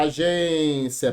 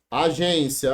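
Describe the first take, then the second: First: Agência slowly, with a long held gên; stressed syllable. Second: Said in the usual way. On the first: Shown as a demonstration. (agência com a sílaba gên bem alongada) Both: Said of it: "é sílaba tônica".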